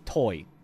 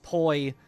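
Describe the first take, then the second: First: The vowel glides quickly, almost like one sound. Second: The vowel glides quickly, almost like one sound.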